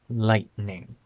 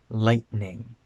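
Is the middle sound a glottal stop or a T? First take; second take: glottal stop; glottal stop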